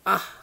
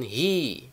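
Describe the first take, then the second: First: It is pronounced like ah. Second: It is pronounced like hi. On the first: "ada yang mengucapkan ah" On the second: "Ada yang mengucapkan hi"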